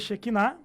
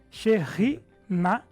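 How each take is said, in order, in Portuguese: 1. A consoante do meio é um som de k forte. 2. A consoante do meio é um som mais suave e gutural. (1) "ela não pronuncia Shekinah" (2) "Essa seria a pronúncia dela"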